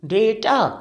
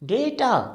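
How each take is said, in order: First: The first vowel is an ay sound. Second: The first vowel is an ay sound.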